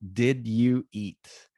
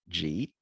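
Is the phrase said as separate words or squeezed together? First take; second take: separate words; squeezed together. First: Each word is said fully and separately. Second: The words are squeezed into one short syllable.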